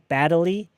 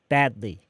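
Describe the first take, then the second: First: An extra vowel is inserted between d and l. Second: The d runs straight into l, no vowel. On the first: The speaker calls it wrong. "Not badly, D랑 리 사이에 으라는 음절이 한 번 더 들어가면 안 돼요" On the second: The speaker calls it right. "it's badly"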